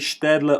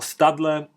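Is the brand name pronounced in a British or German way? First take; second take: German; British. First: The name is pronounced the German way. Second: The name is pronounced the British way. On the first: "in the German" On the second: "or British way"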